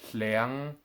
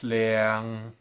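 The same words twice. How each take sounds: First: It is said in a two tone that rises. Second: It is said in the plain two tone. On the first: "As double two tones, they sound like" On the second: "If I said all of these words as a two tone"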